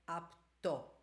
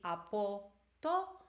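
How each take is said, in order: First: A vowel is dropped, leaving two syllables. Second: All three syllables are pronounced in full.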